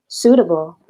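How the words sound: The middle t sounds like a soft d. "bahasa Inggris gaya Amerika ... ada huruf D-nya di tengah"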